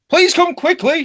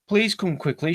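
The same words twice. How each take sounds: First: It is said in a put-on feminine voice. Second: It is said in a normal speaking voice.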